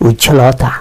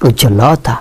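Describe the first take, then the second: No difference in how they are said.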